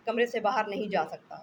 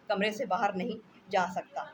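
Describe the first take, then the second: First: Louder, insistent repeat; a sick husband loudly repeating on the phone; exasperated repeat. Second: Said in the usual way. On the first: Acted. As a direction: hammer the point home. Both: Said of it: "repeated louder".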